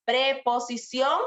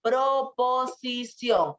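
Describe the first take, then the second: First: Drawn-out "Preposición", clear PRE at the start; "Preposición" spelled out slowly with PRE; preposición, not proposición. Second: Slow, syllable-by-syllable "Proposición". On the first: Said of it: "Preposición es otra cosa". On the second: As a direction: stretch the O in "Pro" of "Proposición". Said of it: "Acuérdate, con la O". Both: Shown as a demonstration.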